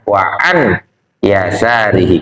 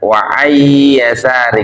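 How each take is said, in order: First: The n is pronounced clearly before the y. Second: The n merges into the following y sound. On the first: The speaker calls it right. "an-nya tetap dibaca an" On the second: The speaker calls it wrong. "nun mati ketemu ya"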